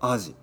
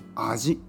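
First: The pitch drops after the first syllable. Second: The pitch does not drop after the first syllable. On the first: It names a kind of fish. "アジは魚ですからね" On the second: It means taste or flavor. "でも僕は味と言ってますね"

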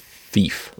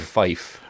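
First: The vowel sounds like 'ee', as in 'feef'. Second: The vowel sounds like 'eye', as in 'fife'. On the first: "I always thought it was fief" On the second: "Were saying fife"

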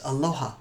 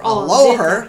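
First: The word is said gently and softly. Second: The word is said hard and harshly. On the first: The speaker calls it right. "Say it's a very soft word" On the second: The speaker calls it wrong. "Don't say aloha or aloha"

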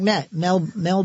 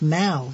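First: The vowel sounds like the e in bet. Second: The vowel sounds like the a in pal. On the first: The speaker calls it wrong. "I'd always heard Mel. I mean, did I just say that wrong?" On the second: The speaker calls it right. "but it's Mal"

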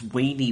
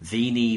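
First: The word begins with a W sound. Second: The word begins with a V sound. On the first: The speaker calls it right. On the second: The speaker calls it wrong.

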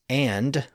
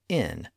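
First: The word ends with a clear D sound. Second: The D is dropped, leaving a short nasal. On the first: "with a distinct D sound at the end" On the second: "just said in"

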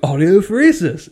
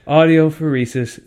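First: The word is said in a friendly, greeting tone. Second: The word is said in a hostile, aggressive tone. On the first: It is a friendly hello or goodbye. "it's a normal, standard, like, aloha kind of goodbye, hello kind of word" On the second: It declares war on people. "somebody will throw a spear at you"

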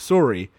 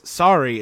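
First: It is said with a Canadian accent. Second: It is said without a Canadian accent. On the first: "instead of sorry" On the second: "doesn't have a Canadian accent. He says sorry"

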